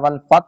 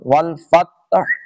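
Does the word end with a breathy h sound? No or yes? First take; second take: no; yes. First: The word ends without any final h sound. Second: The word ends with an audible breathy h sound. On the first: The speaker calls it wrong. "اگر کوئی اس کو والفت پڑھتا ہے والفت تو غلط" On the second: The speaker calls it right. "آخر میں ہاں کی آواز آئے گی"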